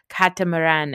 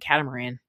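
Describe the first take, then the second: First: The word has a non-American, imitated pronunciation. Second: The word has a plain American pronunciation. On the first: It copies how someone else says it. "as she keeps pronouncing it that way" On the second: It is the speaker's own usual way of saying it. "It's like an asshole American that I am"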